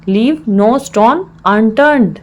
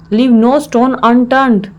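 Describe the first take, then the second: First: Slow, word-by-word teaching delivery; slow repeat. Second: Said in the usual way. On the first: Shown as a demonstration. Teacher repeats the English phrase for learners, slowly.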